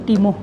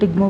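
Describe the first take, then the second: First: The word has no g sound in the middle. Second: The word has a g sound in the middle. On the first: The speaker calls it right. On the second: The speaker calls it wrong. "टिग्मो नहीं"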